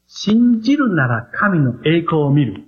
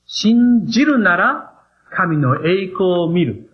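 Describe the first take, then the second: First: 信じるなら神の栄光を見る said slowly, each phrase weighted; slow emphasis. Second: 信じるなら神の栄光を見る drawn out very slowly, word by word; very slow emphasis. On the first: Preacher stresses the key phrase to the congregation, slowly. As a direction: lay 信じるなら神の栄光を見る down slowly and firmly. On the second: Preacher repeats the phrase to drive it home, very slowly. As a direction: spell out 信じるなら神の栄光を見る at half pace. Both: Shown as a demonstration. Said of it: "これが神様の順序だということを覚えてください".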